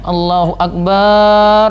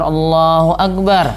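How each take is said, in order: First: Many of the vowels are drawn out long. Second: The vowels are said at normal length.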